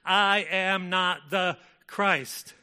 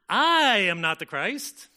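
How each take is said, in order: First: It is said flatly, without added intonation. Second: It is said with expressive, suggestive intonation.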